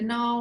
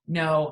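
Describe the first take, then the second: First: The no sounds soft and hesitant. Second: The no sounds firm and definite. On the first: The person is unsure and could be persuaded. "it's a soft no" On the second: The person has clearly decided against it. "Firm no"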